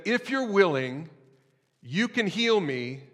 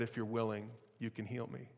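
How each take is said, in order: First: High, slow desperate plea; begging. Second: Soft, hushed plea; desperate plea. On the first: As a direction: plead with him, drawn out and higher. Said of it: "begging to be healed". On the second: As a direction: ask it quietly from his knees. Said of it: "in his desperation". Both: Acted.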